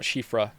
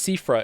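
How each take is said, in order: First: The name begins with an sh sound. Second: The name begins with a plain s sound. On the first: "Not Shifra" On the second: "it's Sifra, isn't it?"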